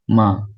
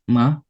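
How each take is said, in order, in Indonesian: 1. Nadanya tetap tinggi dan datar dari awal sampai akhir. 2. Nadanya naik dari tengah ke tinggi. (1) "secara konsisten dari awal hingga akhir kata" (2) "nada kedua, nada naik"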